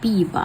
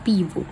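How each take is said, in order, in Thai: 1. สระท้ายที่ไม่เน้นเสียงจะลดเป็น 'a' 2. สระท้ายที่ไม่เน้นเสียงยังคงเป็น 'o' เต็มเสียง (1) "เมื่อตัวโอไม่เน้นเสียงค่ะโอจะกลายเป็นอา" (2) "ไม่ใช่ปีบุค่ะ"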